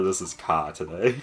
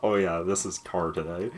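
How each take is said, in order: First: "ka" as car without the R; Boston-style car, said "ka"; dropped R. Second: "car" said with its final R; hard R. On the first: Deciding by the moment, "ka" with R dropped. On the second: Deciding by the moment, "car" with a hard R. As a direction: sound the R clearly in "car". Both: Shown as a demonstration. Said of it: "depends entirely on the moment".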